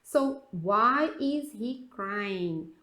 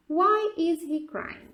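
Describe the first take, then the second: First: Very slow, each word drawn out; slow teaching read. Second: Slow and a bit higher, stressing why; slow clear model. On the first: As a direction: read it slowly for the class. (leitura lenta de professora) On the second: (pergunta lenta e clara) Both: Shown as a demonstration. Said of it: "O primeiro aqui, why?".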